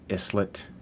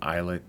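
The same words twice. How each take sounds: First: The s in the word is pronounced. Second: The s in the word is silent.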